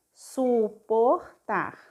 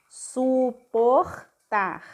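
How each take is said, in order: First: "Suportar" said very slowly as one word, supota; slow whole suportar; slow blended word. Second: "Suportar" stretched very slowly, throaty R, supoxta; drawn out suportar; slow syllabified word. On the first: Teacher blending suportar into one word, slowly. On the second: Teacher sounding out suportar syllable by syllable, slowly. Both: Shown as a demonstration. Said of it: "o R aqui vai ficar tar".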